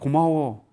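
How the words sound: It is said in an exaggerated, over-the-top way. The gratitude sounds like joking or overdoing it. The speaker calls it wrong. "막 이렇게 얘기하면 이 사람들이 이거 오버"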